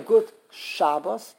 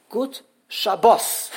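First: Good SHAB-bos, slow, weak ending; Yiddish first-syllable stress. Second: Good sha-BOS, slowly, weight on bos; stress on last syllable. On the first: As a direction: lean on Shab in good Shabbos. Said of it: "the Yiddish way of saying". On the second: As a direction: land on bos in Good Shabbos. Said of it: "The last syllable is bos". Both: Shown as a demonstration.

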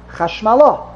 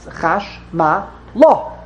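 First: Chash Ma LA joined up, weight on LA; stress on last syllable. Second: Slow Chash, Ma, La with gaps; three separate syllables. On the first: Teacher showing where grammar puts emphasis, joined-up ChashmaLA. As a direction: run "Chash Ma La" together onto a strong La. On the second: Teacher locating the last syllable, slow Chash, Ma, La. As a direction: space out "Chash Ma La" beat by beat. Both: Shown as a demonstration. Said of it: "On the last syllable".

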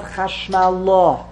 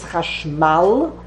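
First: Chashmalah with the weight moved onto LAH; wrong final stress. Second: Chashmal with the weight on MAL; stress on last syllable. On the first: Teacher showing the mistaken accent, stress on LAH. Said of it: "therefore it's not Chashmalah". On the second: Teacher showing the root word to students, stress on MAL. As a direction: land on the final "mal" of Chashmal. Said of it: "put the emphasis on the". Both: Shown as a demonstration.

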